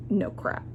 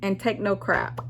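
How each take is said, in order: First: Whispered echo. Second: Said in the usual way. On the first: Real, not acted. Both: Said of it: "sign-off advice".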